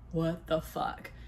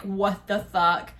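First: Low, quiet, slow mumble of dismay; groggy disbelief. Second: Drawn-out, stunned exclamation; stunned disbelief. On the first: Woman waking after the collapse, low groggy disbelief. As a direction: drag it out softly, barely awake. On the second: Couple as the bed collapses, drawn-out disbelief. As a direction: stretch it out in disbelief. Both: Retold or imitated.

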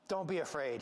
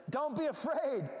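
First: Said in the usual way. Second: Exclaimed reassurance. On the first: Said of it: "he says". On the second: Retold or imitated. Angel reassuring terrified shepherds, exclaimed. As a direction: call it out to calm them. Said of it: "Look at the exclamation point".

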